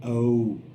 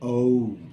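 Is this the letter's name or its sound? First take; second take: name; name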